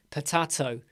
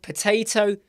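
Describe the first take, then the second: First: "potato" with a broad open middle a, pə-TAH-to; British potato. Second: "potato" with the middle a as in day, pə-TAY-to; British potato. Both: Shown as a demonstration. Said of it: "we have potato, potato".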